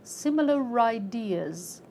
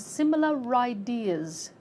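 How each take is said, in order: The two takes are said the same way.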